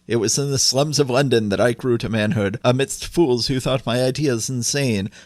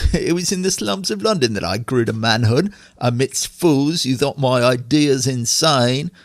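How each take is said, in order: First: It is read in the speaker's ordinary accent. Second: It is read in a put-on Cockney accent.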